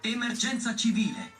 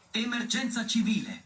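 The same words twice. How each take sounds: The two takes are said the same way.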